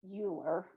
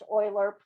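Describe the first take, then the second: First: The name begins with a 'yoo' sound. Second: The name begins with an 'oy' sound. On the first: The speaker calls it wrong. "Please don't say Euler. That's not correct" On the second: The speaker calls it right. "it is pronounced Euler"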